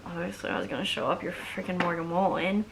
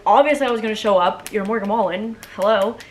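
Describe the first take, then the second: First: Quick, offhand and casual; playing it cool. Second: Louder, emphatic mock-casual; a loud duh, trying to sound nonchalant; telling the star in a dream it was obvious she'd come; overplayed cool. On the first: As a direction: toss it off like it's no big deal. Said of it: "trying to play it cool". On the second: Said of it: "trying to play it cool and not".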